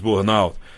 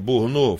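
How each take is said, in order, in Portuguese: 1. A palavra é pronunciada no estilo inglês. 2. A palavra é pronunciada no estilo francês. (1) "Tem gente que acha que é mais para o inglês" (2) "creio que a pronúncia seja Burnout, francês"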